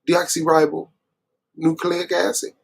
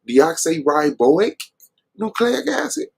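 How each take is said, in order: First: The middle is said as one word, 'ribonucleic'. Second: The middle is said as 'riboic' then 'nucleic'. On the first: The speaker calls it right. "instead of deoxyribonucleic acid" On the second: The speaker calls it wrong. "y'all really let Sabio say deoxyriboic nucleic acid"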